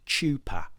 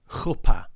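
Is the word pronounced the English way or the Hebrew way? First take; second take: English; Hebrew. First: The word is pronounced the English way. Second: The word is pronounced the Hebrew way. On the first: This is how most of the audience would say it.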